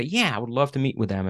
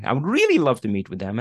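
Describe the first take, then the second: First: Said in the usual way. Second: Keen reply with "really" standing out; stress on REALLY. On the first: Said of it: "don't analyze and say". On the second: Shown as a demonstration. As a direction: lean hard on "really", drawing it out with a pitch rise. Contrasting levels of keenness shown.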